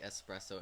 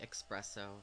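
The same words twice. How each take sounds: First: It has no k sound before the s. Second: It has a k sound before the s. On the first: The speaker calls it right. "and now I say espresso" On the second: The speaker calls it wrong. "I used to say espresso, guilty"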